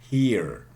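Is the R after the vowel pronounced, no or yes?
yes. It is said with the final R sound.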